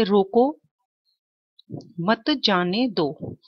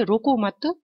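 First: रोको, then a long pause before मत जाने दो; pause after रोको. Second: रोको मत said together as one unit, with the pause coming after मत. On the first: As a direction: stop right after रोको and hold it, then say मत जाने दो slowly. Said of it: "देखिए यहाँ पर example". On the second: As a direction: join रोको मत, then pause before जाने दो. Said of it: "हम यदि कहते हैं तो क्या कहेंगे". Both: Shown as a demonstration.

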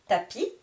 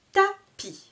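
First: Said in the usual way. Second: "Tapis" as high Ta... pis, with a gap; split into syllables. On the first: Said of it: "je vous répète le vocabulaire de chaque mot". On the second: Shown as a demonstration. Teacher counting syllables, "Tapis" split Ta... pis. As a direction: pause inside "Tapis", between its two beats. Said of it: "Deux syllabes également".

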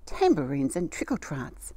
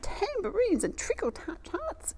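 First: Said in the usual way. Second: Much higher, slow, drawn-out exclamation; excited exclamation. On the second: Acted. Grandma sees hundreds of potatoes, high slow exclamation. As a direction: stretch it out high with wonder. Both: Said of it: "exclaimed Grandma".

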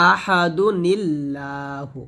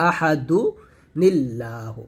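First: Very slow joined recitation of আহাদু নিল্লাহু, নুন carried into লাম; slow Quranic joining demo; tajweed recitation. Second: Broken-up teaching repeat; split recitation. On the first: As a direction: draw out আহাদু নিল্লাহু as one flowing chant. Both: Shown as a demonstration. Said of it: "এটাই হচ্ছে পড়ার নিয়ম".

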